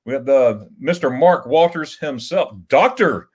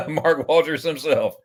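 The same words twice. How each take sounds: First: Slow, drawn-out host welcome; grand announcer intro. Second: Slow, drawn-out name with a falling finish; grand announcer intro. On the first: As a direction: announce the guest like a big entrance. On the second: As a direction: roll out the name like a big entrance. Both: Pretend. Grandly introducing a chat guest.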